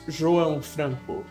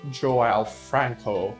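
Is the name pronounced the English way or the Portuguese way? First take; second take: Portuguese; English. First: The name is said with Portuguese pronunciation. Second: The name is said with English pronunciation. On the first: "as you say in Portuguese" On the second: "or as English speakers would say"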